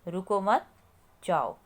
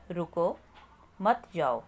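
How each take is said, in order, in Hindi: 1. 'mat' के ठीक बाद विराम है। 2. 'ruko' के ठीक बाद विराम है। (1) "ख वाक्य में हम रुको मत के बाद हम थोड़ा सा रुके हैं" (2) "पहले वाक्य में हमने रुको के बाद हम थोड़ा सा रुके"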